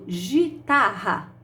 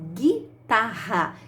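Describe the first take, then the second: First: The first syllable begins with a soft zh sound. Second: The first syllable begins with a hard g sound. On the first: The speaker calls it wrong. "se eu colocar o G e o I, forma gi" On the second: The speaker calls it right. "Eu falo guitarra"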